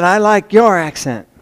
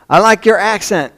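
First: "your" picked out as the odd one; stress on YOUR. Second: Lightly imitated Oklahoma southern drawl, higher; a touch of a southern girl's drawl; southern drawl imitation. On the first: Retold or imitated. Drawling Oklahoma girl remarks on his accent, stressing "your". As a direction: lean on "your", imitating the southern girl. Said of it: "but, but she said". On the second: Girl in history class to a Chicagoan, southern drawl. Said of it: "she had this big southern drawl".

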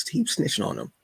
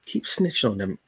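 First: "Keep snitching on them" lifted high, stress on "keep"; higher repeat. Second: Said in the usual way. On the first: Shown as a demonstration. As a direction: tease it up high the second time.

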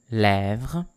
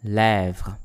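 First: Lèvres with open "eh", lifting at the end; open è repeat. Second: Lèvres modelled with open "eh" and final vr. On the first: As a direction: say Lèvres with a rising tune. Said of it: "encore une fois". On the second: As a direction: say Lèvres carefully for learners. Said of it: "words with this sound". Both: Shown as a demonstration.

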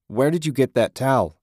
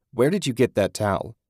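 First: Higher, louder demand; angry repeat. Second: Said in the usual way. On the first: A narrator's reading. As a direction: press him harder. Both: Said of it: "he repeated".

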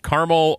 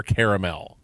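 First: Caramel as CAR-mul; two-syllable pronunciation. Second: Caramel as CARE-uh-mel; three-syllable pronunciation. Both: Shown as a demonstration. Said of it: "how we should be saying".

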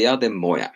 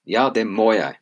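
First: Said in the usual way. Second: "må" given a clear, firm stress. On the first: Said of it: "you say". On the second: Shown as a demonstration. Teacher modelling "Ja, det må jeg" with stress on "må". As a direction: lean on the verb "må". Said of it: "good, må".

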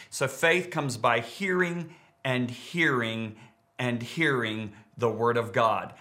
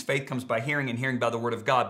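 First: Slow, each hearing leaned on; drawn-out emphasis. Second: Said in the usual way. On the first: Shown as a demonstration. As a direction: stretch hearing and hearing, slowly. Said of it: "So I'm adding to that by saying it". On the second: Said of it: "it actually reads".

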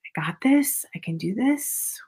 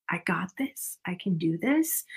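First: Said in the usual way. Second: Hushed inner pep talk, under the breath; murmured reassurance to self; quiet self-talk. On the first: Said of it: "telling yourself it's gonna be okay". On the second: Shown as a demonstration. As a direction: say it softly to yourself. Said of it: "Doing it inside of your head".

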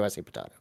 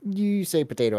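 First: "potato" as po-TAH-to; other potato pronunciation. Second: "potato" as po-TAY-to; quoted potato pronunciation. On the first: Bantering with co-host over a saying, "potato" with AH. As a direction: say "potato" with an AH in the middle, dropping low and soft. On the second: Bantering with co-host over a saying, "potato" with AY. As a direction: say "potato" with an AY in the middle, higher pitched. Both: Shown as a demonstration. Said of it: "you say potato, I say potato".

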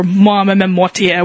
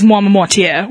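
First: "Moi Mortier" as mah-meh-meh-MOR-tee-air; slow, stumbling "Moi Mortier" with extra "meh"; alternative pronunciation. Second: "Moi Mortier" as mah-muh-MOR-tee-air; French name in an Australian accent, "Moi Mortier"; first attempted pronunciation. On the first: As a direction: stretch out "Moi Mortier", fumbling through the middle. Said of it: "or Moi Mortier, whatever". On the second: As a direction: say "Moi Mortier" quickly, with a short "muh" in the middle. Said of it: "I'm terrible at pronouncing it". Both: Shown as a demonstration.

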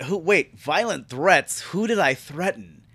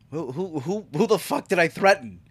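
First: Mildly baffled retold question; toned-down disbelief. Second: Stammering start rising into a sweary challenge; exaggerated disbelief. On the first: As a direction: question it with restrained confusion, no swearing. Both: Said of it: "I didn't say it like that".

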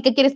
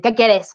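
First: Milder grumpy reply, higher in pitch; imitating a less harsh grumpy answer; toned-down surly retort. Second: Curt mock-surly reply with a falling end; imitating her own grumpy answer; surly retort. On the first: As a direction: play the irritation down, quick and higher. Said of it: "no tanto así". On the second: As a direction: snap it lightly, as if bothered by everyone. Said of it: "le contestaba a medio mundo de jeta".

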